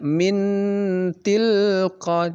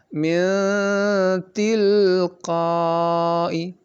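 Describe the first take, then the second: First: The n sound is pronounced clearly and distinctly. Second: The n sound is hidden with a nasal hum. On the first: The speaker calls it wrong. "tidak seperti izhar, tidak min tilqa, bukan begitu" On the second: The speaker calls it right. "tapi dibaca samar dia"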